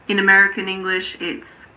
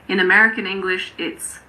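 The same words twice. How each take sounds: Both takes have the same delivery.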